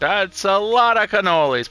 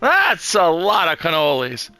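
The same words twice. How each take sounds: First: It is said flatly, without emphasis. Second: It is said with strong, lively emphasis.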